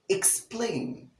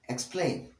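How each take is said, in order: First: The word has a clear K sound after E. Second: The word lacks the clear K sound after E. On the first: The speaker calls it right. "Explain with the short E sound, the K sound, the S sound" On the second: The speaker calls it wrong. "This word is wrongly mispronounced as explain"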